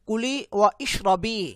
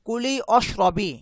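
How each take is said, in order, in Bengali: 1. একটি হামযা (glottal stop) 'wa' আর 'ishrabi'-কে আলাদা করে। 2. শব্দ দুটো একসাথে জোড়া লাগে, কোনো হামযা (glottal stop) নেই। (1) "আমি কিন্তু বলছি না" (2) "যখন আমি মিলিয়ে পড়ছি অশরবি, এই আলিফটা ... প্রোনাউন্স করছি না"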